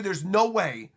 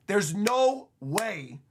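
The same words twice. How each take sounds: First: Said in the usual way. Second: "no" stretched out slowly and leaned on; slow disbelieving insistence; slow emphatic no way. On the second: Shown as a demonstration. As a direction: drag out "there's no way" word by word.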